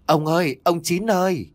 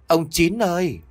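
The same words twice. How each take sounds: First: High, long call into the dark; anxious night call, voice carried far. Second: High, stretched call across the pond. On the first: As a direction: call out for the husband across the yard. Grandma calling husband in dark. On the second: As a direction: call his name into the darkness once more. Calls again into the dark. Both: Acted.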